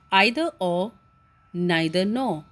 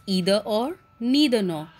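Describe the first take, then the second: First: "either or, neither nor" with EYE-ther and NYE-ther; British-style pronunciation. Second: "either or, neither nor" with EE-ther and NEE-ther; alternative American pronunciation. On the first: Teacher introducing the topic to students, "either" as EYE-ther, "neither" as NYE-ther. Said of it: "one of the pronunciation is of British English". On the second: Teacher showing students the other pronunciation, "either" as EE-ther, "neither" as NEE-ther. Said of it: "some of them also pronounce it as". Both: Shown as a demonstration.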